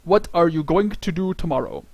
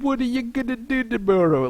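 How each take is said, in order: First: Each word is said clearly and separately. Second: The words are slurred together quickly.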